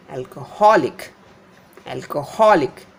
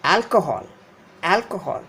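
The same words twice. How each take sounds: First: Alcoholic as al-co-HOL-ic; stress before suffix. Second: Alcohol as AL-co-hol; first-syllable stress. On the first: Teacher showing suffix shift, alcoholic stressed on HOL. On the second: Teacher showing the root word, alcohol stressed on AL. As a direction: hit AL in alcohol, let the rest drop. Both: Shown as a demonstration. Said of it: "The syllable before this I C extension is stressed".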